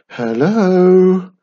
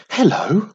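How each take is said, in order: First: Long, loud, higher hello; nervous calling. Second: Higher, louder friendly hello; pleasant greeting. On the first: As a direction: call uncertainly into an empty hall. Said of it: "called Wiz nervously". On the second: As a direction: greet sweetly to win someone over. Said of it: "she said pleasantly". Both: A narrator's reading.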